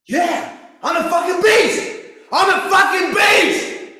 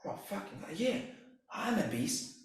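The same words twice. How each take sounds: First: Much higher, much louder, roaring at full force; pumped-up shout. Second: Barely voiced, whispered to himself; hushed self-talk. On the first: Retold or imitated. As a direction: yell it to psych yourself up. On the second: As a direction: murmur it to yourself as you wake. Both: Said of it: "And I'm like, when I wake up".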